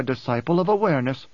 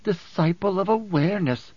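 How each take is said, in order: First: Said in the usual way. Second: Higher, mimicking mock title; mocking mimicry. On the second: A narrator's reading. Woman echoing the Mentat's own title, mocking mimicry. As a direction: throw his phrase back mockingly. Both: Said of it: "Her voice was heavy with mimicry".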